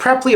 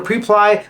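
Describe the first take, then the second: First: Preply with a short first vowel, PREP-lee; alternative pronunciation. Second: Preply with a long first vowel, PREE-ply; alternative pronunciation. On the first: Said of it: "I don't know if it's". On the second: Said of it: "Preply or Preply". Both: Shown as a demonstration.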